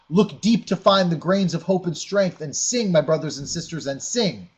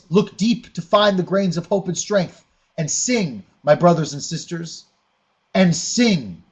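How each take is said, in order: First: It is read flatly, without emphasis. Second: It is read expressively, with strong emphasis.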